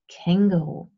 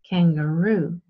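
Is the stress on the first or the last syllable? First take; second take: first; last. First: The stress is on the first syllable. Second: The stress is on the last syllable. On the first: "In German you stress the first part" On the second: "in English you say kangaroo and you stress the last part of the word"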